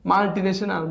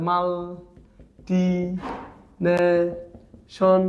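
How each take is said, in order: First: Said in the usual way. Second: মাল্টিনেশন very slowly in four separate beats; syllable by syllable. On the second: Shown as a demonstration. Teacher breaking a long word, very slow syllables. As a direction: stretch each syllable of মাল্টিনেশন, long gaps between. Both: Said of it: "ভেঙে ভেঙে পড়বেন".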